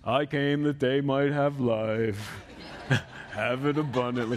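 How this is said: It is said gloomily, like Eeyore.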